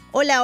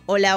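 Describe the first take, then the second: First: It is said in a high voice. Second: It is said in a low voice.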